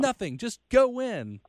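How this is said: It is said in a forceful, rallying way. It is a rallying cry to fire people up. The speaker calls it wrong. "not like"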